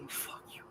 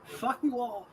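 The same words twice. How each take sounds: First: Breathy whispered curse under breath. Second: Said in the usual way. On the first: Real, not acted. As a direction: whisper it so no one hears. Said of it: "whispered repeat of previous". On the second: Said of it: "whispered repeat right after".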